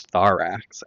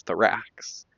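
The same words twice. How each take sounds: First: "thorax" as THOR-ax, weight up front; stress on first syllable. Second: "thorax" as thuh-RAX, weight at the end; stress on second syllable. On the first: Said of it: "we put the emphasis on the first". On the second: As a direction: shorten "thor" and stress "ax" in "thorax". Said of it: "the emphasis is on the second syllable". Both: Shown as a demonstration.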